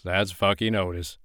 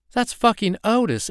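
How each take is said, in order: First: Said in the usual way. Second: High, loud exasperated cry; startled outburst. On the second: Acted. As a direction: blurt it out, half shocked half annoyed. Startled woman accuses Otis.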